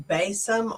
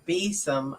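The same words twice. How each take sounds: First: Besom said BAY-sum; long-A besom. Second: Besom said BEE-sum; long-E besom. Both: Shown as a demonstration. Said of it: "Um, pronounced be".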